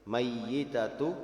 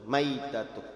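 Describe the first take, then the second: First: The y sound is doubled and held longer. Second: The y sound is single and short. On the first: It usually means about to die. "Bitasydidi, dengan dibaca tasydid" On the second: It usually means already dead. "dan dengan takhfif yaitu dibaca sukun"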